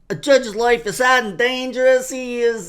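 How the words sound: It is read in that guy's character voice.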